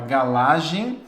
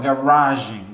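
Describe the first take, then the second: First: The middle consonant sounds like an L. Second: The middle consonant is an English-style R. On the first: The speaker calls it wrong. "porque ele não consegue falar um R" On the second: The speaker calls it right. "fala o R em inglês"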